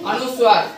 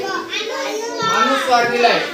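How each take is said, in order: First: Said in the usual way. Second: अनुस्वार said high and very slow, each syllable stretched; slow, high teacher's model of अनुस्वार; drawn-out demonstration. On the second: Shown as a demonstration. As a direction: spell out अनुस्वार slowly for the class. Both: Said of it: "आपण इथं काय केलंय शंख मध्ये?".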